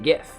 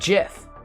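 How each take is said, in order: First: The word begins with a hard G sound. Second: The word begins with a soft J sound. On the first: The speaker calls it right. "I'm going to pronounce it GIF" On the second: The speaker calls it wrong. "The guy that created GIFs pronounces it GIF"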